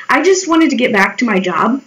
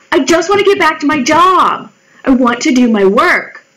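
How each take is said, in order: First: Said in the usual way. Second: Higher, pleading insistence; exasperated protest. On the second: Retold or imitated. To the coworker nagging her, an exasperated plea. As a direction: push back like you're fed up.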